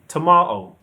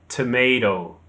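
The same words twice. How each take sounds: First: British pronunciation, stressed on the second syllable. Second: American pronunciation, with a D-like middle sound. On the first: "the stress is on the second syllable" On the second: "Americans say tomato. The stress is on the first syllable"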